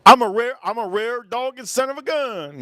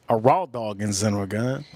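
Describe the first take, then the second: First: High, strange put-on voice. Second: Said in the usual way. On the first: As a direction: brag it in a squeaky silly character voice. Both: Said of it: "Yes, he is".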